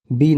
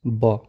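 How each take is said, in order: First: बी said as the English letter name bee; बी as the wrong reading, the full name bee. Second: ब said as a short b sound, not bee; ब as the sound only, a short ba; letter sound. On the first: ("बी" अंग्रेज़ी नाम बी की तरह, गलत उच्चारण) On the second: ("ब" छोटी ध्वनि ब, सही उच्चारण) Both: Shown as a demonstration. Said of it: "बी नहीं पढ़ना है".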